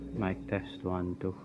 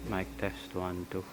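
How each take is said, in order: First: The audio is filtered with equalization. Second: The audio is raw and unprocessed. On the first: "for the second half, we're going to filter in E Q" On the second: "for the first half of each test, we're going to show the raw and unprocessed"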